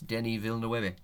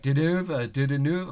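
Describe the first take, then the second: First: The first and last names are pronounced distinctly. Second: The name is mashed into one garbled word. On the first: The speaker calls it right. "no, it's Denis Villeneuve" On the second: The speaker calls it wrong. "he's like, Didanouve"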